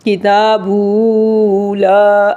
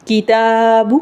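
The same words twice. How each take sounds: First: "کتاب" wrongly stretched to kitaabuu before "لا"; wrongly lengthened baa. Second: "کتاب" with long taa and short final bu; short baa. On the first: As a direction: hold the final u of "کتاب" too long, into "لا". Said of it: "ایسے نہیں پڑھنا". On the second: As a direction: stretch the aa of "کتاب" but cut the final u short. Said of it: "با کو لمبا نہیں کرنا". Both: Shown as a demonstration.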